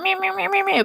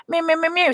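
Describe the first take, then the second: First: Even higher mocking mew; mewing back. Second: High whiny mew; mock a whining child, pitched high; childish mewing. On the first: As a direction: throw the whine straight back, pitched way up. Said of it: "So I was going ... back". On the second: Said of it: "being a friggin' child".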